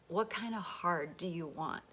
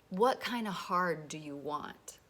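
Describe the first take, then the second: No difference in how they are said.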